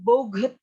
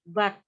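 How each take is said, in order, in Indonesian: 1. Kata itu diucapkan dua suku kata, bo-get. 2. Kata itu diucapkan satu suku kata pendek. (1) "bukan boget" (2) "tapi but"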